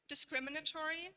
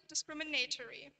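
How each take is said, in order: First: "Discriminatory" stressed on CRIM, with a reduced A; "Discriminatory" as dis-CRIM-inatory, short vowel before "tory"; stress shift demo. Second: "discriminatory" stressed on NAY; "discriminatory" as discrimi-NAY-tory, with a full diphthong; stress shift demo. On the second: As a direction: move the main stress of "discriminatory" late, onto NAY. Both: Shown as a demonstration. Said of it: "exhibit variation in their primary stress".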